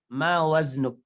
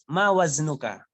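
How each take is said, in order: First: The last word ends on a bare consonant. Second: The last word ends with a short vowel. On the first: "boleh disukun ya, akhir kalimat" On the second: "Boleh dibaca"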